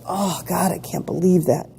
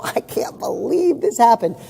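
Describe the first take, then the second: First: Understated acted-out complaint; lightly imitated poor-me grumble; mild mock dismay. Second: Higher, drawn-out, laughing disbelief; amused disbelief. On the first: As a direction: take it seriously, as a mild gripe. Acting out taking it seriously. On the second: Acted. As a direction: laugh it off in mock amazement. Laughing off things going wrong.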